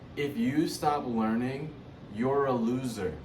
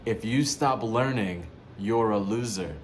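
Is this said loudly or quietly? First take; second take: quietly; loudly. First: It is said at a normal, quieter volume. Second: It is said at a louder volume.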